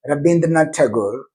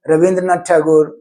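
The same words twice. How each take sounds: First: "Rabindranath" with a clear b; Bengali ba sound. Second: "Rabindranath" said with v or w for the b, Ravindranath; wa sound. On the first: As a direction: say "Rabindranath" with b, not v. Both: Shown as a demonstration. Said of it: "but they have ba sound".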